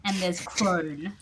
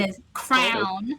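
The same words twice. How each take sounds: First: CRONE said slowly, with a long "oh" vowel; "crone" set clearly apart, rounded "oh"; distinct pronunciation. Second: CROWN said slowly and emphatically, with an "ow" vowel; "crown" set clearly apart, wide gliding vowel; distinct pronunciation. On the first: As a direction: draw out "crone" to rhyme with bone. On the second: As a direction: draw out "crown" to rhyme with town. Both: Shown as a demonstration. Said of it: "pairs of words that I say very differently".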